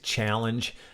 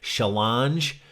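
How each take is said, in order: First: It is said with an American accent. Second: It is said with a French accent. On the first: "which translated into American is challenge" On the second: "The French consistently mispronounce the word problem by saying challenge"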